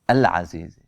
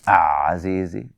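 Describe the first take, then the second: First: The article's L sound is pronounced clearly. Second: The L merges into a doubled Z sound. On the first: The speaker calls it right. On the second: The speaker calls it wrong.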